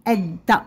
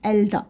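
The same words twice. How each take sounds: First: The L is silent; the D sound is doubled. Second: The L is clearly pronounced before the D. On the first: The speaker calls it right. "كنقولو" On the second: The speaker calls it wrong. "ما كنقولش الدا"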